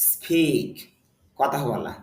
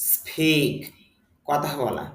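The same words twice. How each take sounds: Both takes have the same delivery.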